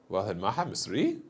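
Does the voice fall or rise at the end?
rise. The voice rises at the end. It asks a question. "a pitch rise ... as a question form"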